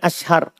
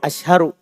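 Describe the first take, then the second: First: The word ends on a bare consonant. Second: The word ends with a final u vowel. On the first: The speaker calls it wrong. "Jangan bilang ashhar" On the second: The speaker calls it right. "Kan yanduru ashharu"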